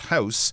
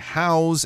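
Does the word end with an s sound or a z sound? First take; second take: s sound; z sound. First: The word is said the noun way, ending hissed. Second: The word is said the verb way, ending buzzed. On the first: It means a building people live in. The speaker calls it wrong. "and not house" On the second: It means giving something a place to be. The speaker calls it right. "we're saying house"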